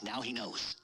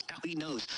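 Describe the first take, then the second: First: Said in the usual way. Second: Laughing. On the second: Real, not acted.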